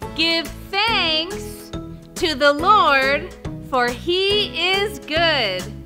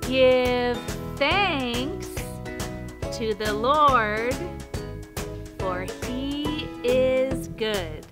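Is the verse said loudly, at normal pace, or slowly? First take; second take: loudly; slowly. First: It is said very loudly. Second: It is said very slowly. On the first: "Now let's do it super loud" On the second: "Now let's do it really slow"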